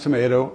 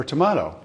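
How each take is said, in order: First: "tomato" said tuh-MAY-toh. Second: "tomato" said tuh-MAH-toh. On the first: Retelling an audience question to Flip Wilson, tomato as tuh-MAY-toh. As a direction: middle vowel of "tomato" as in may. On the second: Retelling an audience question to Flip Wilson, tomato as tuh-MAH-toh. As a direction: middle vowel of "tomato" as in father. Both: Retold or imitated. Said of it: "Is it pronounced tomato or tomato".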